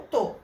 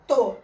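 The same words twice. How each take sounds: First: Said in the usual way. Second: To said much louder, set apart; to punched out loud; stressed syllable. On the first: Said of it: "ele representou lá o gato". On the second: Shown as a demonstration. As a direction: hit the syllable to on its own, loud. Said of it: "ele vai só juntar a última, to".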